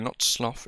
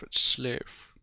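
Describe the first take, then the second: First: "sloth" with a short o, as in "cloth"; clipped "slof" vowel in "sloth". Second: "sloth" with a long o, as in "both"; drawn "oh" vowel in "sloth". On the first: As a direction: say "sloth" to rhyme with "moth". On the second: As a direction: say "sloth" to rhyme with "growth". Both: Shown as a demonstration.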